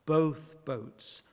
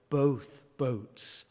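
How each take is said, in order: Both takes have the same delivery.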